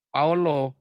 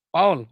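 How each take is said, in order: First: The name ends with an added o sound. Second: The name ends on the l with one syllable. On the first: This is how Arabic speakers say it. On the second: This is how the name is normally said. "kalau orang panggil nama saya"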